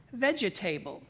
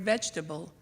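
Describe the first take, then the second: First: Vegetable said as VEJ-uh-TAY-ble; vegetable in four syllables with a long A, as VEJ-uh-TAY-ble; vegetable misread as VEJ-uh-TAY-ble; vegetable mispronounced. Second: Said in the usual way. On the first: Shown as a demonstration. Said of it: "instead of correcting me".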